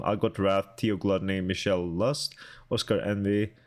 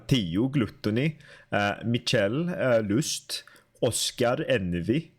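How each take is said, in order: First: Said in the usual way. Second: Put-on names read in a Swedish accent, "Theo" as "tiu", "Gluttony" as "glutuni"; terrible Swedish accent. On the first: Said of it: "Swedish accent has been enabled". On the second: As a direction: say "Oscar Envy" with Swedish vowels and rolled r. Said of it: "terrible Swedish accent".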